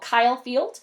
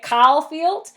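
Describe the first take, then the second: First: It is said with a general American accent. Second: It is said with a Texan accent. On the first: This is the speaker's usual way of speaking. "arena was called Kyle Field" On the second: The speaker picked up a friend's speech habit. "I was calling it Kyle Field"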